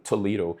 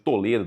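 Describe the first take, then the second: First: It is pronounced the American English way. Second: It is pronounced the Brazilian Portuguese way. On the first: It names the American university. "eles falam Toledo nos Estados Unidos, tá? Por isso a pronúncia linda" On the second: It names the city in Paraná. "existe a cidade de Toledo, no Paraná"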